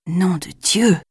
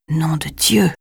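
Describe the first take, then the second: First: A lightly voiced startled exclamation; half-voiced oath of surprise; mild exclamation. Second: Breathless unvoiced whisper of shock; whispered oath. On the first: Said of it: "s'exclama Jason". (exclamation surprise, voix normale) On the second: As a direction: whisper the curse in awe. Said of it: "Le chuchotement blasphématoire de Jason". (juron chuchoté, sans voix)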